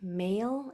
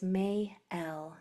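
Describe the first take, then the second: First: The vowel is said as one syllable. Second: The vowel is split into two syllables. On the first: The speaker calls it wrong. "It's not really male" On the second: The speaker calls it right. "we hear two vowel sounds"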